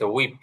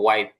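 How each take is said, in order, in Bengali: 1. শব্দটি 'hweep' এর মতো উচ্চারিত হয়, ee স্বরধ্বনি সহ। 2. শব্দটি 'wipe' এর মতো উচ্চারিত হয়, eye স্বরধ্বনি সহ। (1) "এটা ভুল হিসেবে প্রসিদ্ধ হয়ে গেছে হুইপ" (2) "কিন্তু এটা হবে ওয়াইপ"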